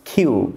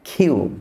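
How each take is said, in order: The two takes are said the same way.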